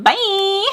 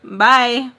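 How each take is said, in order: First: Very high, sing-song held "bye"; exaggerated high-note farewell; millennial bye. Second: Said in the usual way. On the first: Shown as a demonstration. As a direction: pitch "bye" way up and stretch it. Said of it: "a lot better when you say". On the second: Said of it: "it's boring saying bye".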